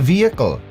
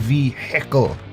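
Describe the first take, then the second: First: The h sound in the middle is silent. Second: The h sound in the middle is pronounced. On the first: The speaker calls it right. "It's silent" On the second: The speaker calls it wrong. "Or is it only hicks that say vehicle?"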